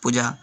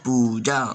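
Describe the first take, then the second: First: The first vowel is short. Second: The first vowel is long. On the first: The speaker calls it wrong. "छोटी ऊ की मात्रा लगी लगी हुई है, यानी उच्चारित क्या होगा" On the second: The speaker calls it right. "और हमारा शब्द क्या है"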